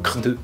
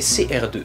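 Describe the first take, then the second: First: The letters C and R form one word. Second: The letters C and R are spelled out. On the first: The speaker calls it wrong. "c'est pas un acronyme, alors n'allez pas me dire" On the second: The speaker calls it right. "c'est C R deux"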